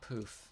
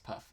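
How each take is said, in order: First: The vowel is a long oo sound. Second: The vowel is a short u sound. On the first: The speaker calls it wrong. "no, it's not poof" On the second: The speaker calls it right. "it's puff"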